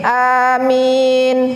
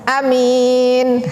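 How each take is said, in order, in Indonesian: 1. Kedua vokal dibaca panjang. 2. Salah satu vokalnya dibaca pendek. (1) "Bacanya panjang a, panjang min" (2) "Kalau pendek"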